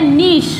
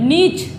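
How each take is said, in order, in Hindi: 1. लंबी 'ee' आवाज़, और 'sh' की आवाज़ पर खत्म। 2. लंबी 'ee' आवाज़, और 'ch' की आवाज़ पर खत्म। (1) "ब्रिटिश इंग्लिश में इसको बोला जाता है" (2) "इसको क्या पढ़ते हैं हम कॉमन में"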